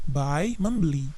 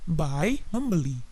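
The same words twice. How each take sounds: Both takes have the same delivery.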